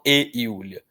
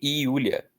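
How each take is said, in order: First: The word 'e' is said as a full 'eh' sound. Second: The word 'e' is reduced to an 'ee' sound. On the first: The speaker calls it wrong. "Eu não falo e Yulia" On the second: The speaker calls it right.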